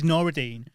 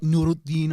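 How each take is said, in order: First: The name is said in a Manchester accent. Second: The name is said with an Arabic pronunciation. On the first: "I do it in a Manc accent" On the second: "in its original Arabic, it's supposed to be like"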